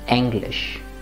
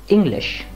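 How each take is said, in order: First: The first vowel is the German e sound. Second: The first vowel is not the German e sound. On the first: The speaker calls it right. "but English" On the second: The speaker calls it wrong. "And not English"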